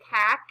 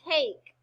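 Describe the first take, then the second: First: The vowel is short. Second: The vowel is long. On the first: The speaker calls it wrong. "I don't say cack" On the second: The speaker calls it right. "They're long. They say their names"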